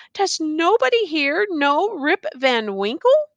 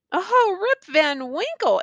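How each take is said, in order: First: Mild despair, pitched higher; despairing cry. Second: High, drawn-out exclamation of recognition. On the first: Rip asks the crowd after himself, mildly despairing. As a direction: plead with a touch of despair, rising at the end. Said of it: "cried out in despair". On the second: Bystanders recognise the name, exclaiming. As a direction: exclaim it slowly, pitched high, falling away. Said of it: "exclaimed two or three". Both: A narrator's reading.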